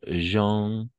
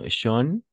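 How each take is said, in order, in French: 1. La première consonne est un 'j' doux et voisé. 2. La première consonne est un 'sh' sourd et non voisé. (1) "el sonido es je" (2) "A veces escucho como"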